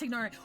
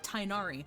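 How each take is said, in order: First: A 'g' sound is heard before the 'n'. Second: No 'g' sound; the first syllable is 'tie'. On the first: The speaker calls it right. "I think it's Tignari" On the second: The speaker calls it wrong. "they pronounced it Tainari"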